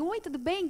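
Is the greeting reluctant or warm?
warm. The greeting sounds warm and friendly.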